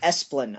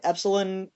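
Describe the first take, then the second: First: The name is said as two-syllable Esplin. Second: The name is said like the word epsilon. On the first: The speaker calls it right. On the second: The speaker calls it wrong.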